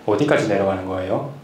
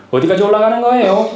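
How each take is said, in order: First: 내려가는 거예요 drops low and quiet at the end; Seoul-style question that falls away; falling Seoul tune. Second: 올라가는 거예요 ends on a high Gyeongsang rise; rising Gyeongsang tune. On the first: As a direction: let the line fall off low and soft. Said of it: "올리지 말고 내리면 좀 약간 서울스럽더라고요". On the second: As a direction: lift the whole line up high at the end. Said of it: "이거 방송에서 나왔잖아요". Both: Shown as a demonstration.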